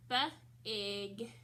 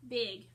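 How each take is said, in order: First: "B-ig" split into buh, then ig; sounded out. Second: Said in the usual way. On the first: Shown as a demonstration. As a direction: break "B-ig" after the b, with a gap. Teacher breaks word into sounds.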